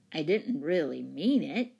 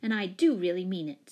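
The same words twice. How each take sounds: First: Mildly defensive, understated; a sheepish excuse with rise on "mean"; sheepish protest. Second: Grimly firm, "do" punched above the other words; grim insistence. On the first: Don apologises, lower and subdued. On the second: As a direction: stress on "do". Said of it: "said Jane grimly". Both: A narrator's reading.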